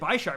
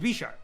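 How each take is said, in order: First: The first syllable sounds like the prefix bi-. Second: The first syllable does not sound like bi-. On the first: The speaker calls it wrong. "I always said Bisharp because it has two blades, two, right? Bi" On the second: The speaker calls it right. "But apparently it's Bisharp"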